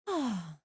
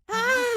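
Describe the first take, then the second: First: It is said softly and calmly. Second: It is screamed loudly and urgently. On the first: Waking up from the drug feels relaxed. "when I wake up from it, I wake up and I'm just like" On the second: Waking up from full anesthesia feels distressing. "it's like screaming"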